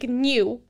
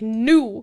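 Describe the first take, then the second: First: The vowel starts with a y glide, nyoo. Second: The vowel is a plain oo, noo. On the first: The speaker calls it right. "I say new like new" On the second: The speaker calls it wrong. "Elizabeth says new like new"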